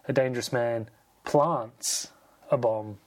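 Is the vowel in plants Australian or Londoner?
Londoner. Plants has a Londoner A vowel. "my autocorrect wants me to say"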